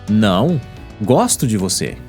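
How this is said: There is a pause right after não.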